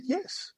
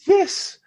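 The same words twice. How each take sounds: First: High, soft retold assurance; small defensive yes. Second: High, loud exasperated assurance; emphatic yes. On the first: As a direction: answer meekly in a raised pitch. Retold first answer to her doubt. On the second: Retold or imitated. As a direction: fire it back high and loud. Retold exasperated second answer.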